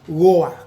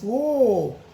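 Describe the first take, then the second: First: The vowel is said short. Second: The vowel is said long. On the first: The speaker calls it wrong. "not short one" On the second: The speaker calls it right. "it's a long oh"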